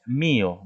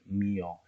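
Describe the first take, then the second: First: Mío said as MÍ-o, weight on the i; mío with the first vowel carrying the force; correct stress. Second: Mío said as mi-Ó, weight on the final o; mío with a light i and stressed o; wrong stress. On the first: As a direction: stress the I in mío, o left light. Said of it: "nosotros decimos mío". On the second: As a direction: shift the force of mío to the O. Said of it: "no decimos mío". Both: Shown as a demonstration.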